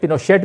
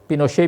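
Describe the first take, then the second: First: The name ends with an audible t sound. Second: The name ends without a t sound.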